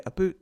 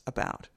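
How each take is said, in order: First: Scottish oo vowel in "about"; Scottish accent. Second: Said in the usual way. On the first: Shown as a demonstration. Lecturer explaining sound substitution, Scottish accent. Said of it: "when I hear Stephen's accent". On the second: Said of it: "that's about".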